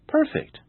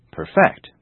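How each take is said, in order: First: "perfect" stressed on PER; first-syllable stress. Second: "perfect" stressed loudly on FECT; weak start, loud high end on "perfect"; second-syllable stress. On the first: Teacher giving another example, "perfect" stressed on first syllable. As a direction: hit the start of "perfect". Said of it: "Perfect is an adjective". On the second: Teacher giving another example, "perfect" stressed on second syllable. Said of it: "The verb is perfect". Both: Shown as a demonstration.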